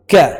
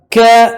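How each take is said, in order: First: Said in the usual way. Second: "Ka" held long and higher; long vowel. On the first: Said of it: "كاف أبفل". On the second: Shown as a demonstration. Teacher spelling for students, long "Ka". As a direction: stretch "Ka" into kaa. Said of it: "Maddu alif".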